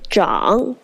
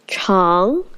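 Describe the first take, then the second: First: It is said with the reading meaning grow. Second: It is said with the reading meaning long. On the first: It means develop or grow. "this time it means develop or grow" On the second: It means long. "we know it means long, which is the adjective"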